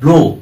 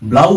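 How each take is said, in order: First: The vowel is pronounced like 'oh' in go. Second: The vowel is pronounced like 'ow' in cow. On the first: The speaker calls it right. "যেমন ব্লো" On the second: The speaker calls it wrong. "ব্লাউ হয় না"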